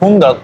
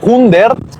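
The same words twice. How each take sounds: First: The ending is said with an 'a' sound. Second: The ending is said with a clear 'ert' sound. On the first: "pero se pronuncia hundert" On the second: "Se escribe hundert"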